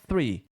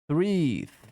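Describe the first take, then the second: First: The word is said quickly at normal speed. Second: The word is said slowly and drawn out. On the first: "aí acelera" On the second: "você vai praticando devagar"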